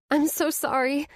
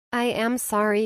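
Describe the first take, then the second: First: Said in the usual way. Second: Sincere "am" held long; stress on am. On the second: A narrator's reading. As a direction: insist "I am sorry". Renewed sincere apology.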